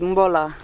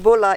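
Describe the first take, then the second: First: The word starts with an m before b. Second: The word starts with a plain b sound. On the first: "so bula is mbola" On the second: "so the B is mba"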